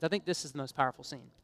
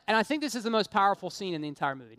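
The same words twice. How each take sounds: First: Softer and lower, slowing on the thought; hushed repeat. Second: Said in the usual way. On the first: Shown as a demonstration. Preacher to congregation, repeating it softly and reverently. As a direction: drop the voice to let it land. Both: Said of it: "Not the war scenes".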